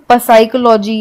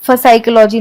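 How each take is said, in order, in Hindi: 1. S से पहले P की ध्वनि सुनाई देती है। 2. S से पहले F की ध्वनि सुनाई देती है। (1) "इसे हम पसाइकोलॉजी या फसाइकोलॉजी नहीं पढ़ेंगे" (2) "इसे हम पसाइकोलॉजी या फसाइकोलॉजी नहीं पढ़ेंगे"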